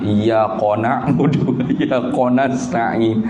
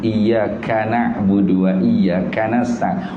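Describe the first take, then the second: First: Iyyaka is said with a deep back q. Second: Iyyaka is said with a plain front k.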